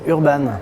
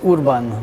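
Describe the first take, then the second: First: The name is pronounced the French way. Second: The name is pronounced the Hungarian way. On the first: This is how people say the name locally. "Mais ici, on va dire Urban" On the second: This is the name's original pronunciation. "la véritable, la bonne prononciation, ce serait Urban, parce que c'est d'origine hongroise"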